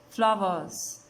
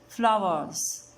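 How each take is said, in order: Both takes have the same delivery.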